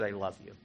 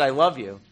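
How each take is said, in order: First: Soft, tender retold divine answer; a hushed, loving voice of God; gentle reply. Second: Louder, steady retold answer of God; a patient, louder divine reassurance; firmer loving reply. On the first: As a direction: say it softly as God's quiet reply. God answers him in retold prayer. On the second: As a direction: repeat it with gentle firmness.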